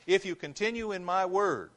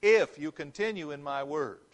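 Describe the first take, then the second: First: „If you continue in my word” z naciskiem na IF, wyżej i głośniej; stress on if. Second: „If you continue in my word” z naciskiem na IF; stress on if again. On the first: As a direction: punch the word "If". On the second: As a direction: hit "If" again, deliberately. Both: Shown as a demonstration. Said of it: "Look at the "if" there".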